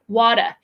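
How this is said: The middle T sounds like a D. "as a D sound like the American sound"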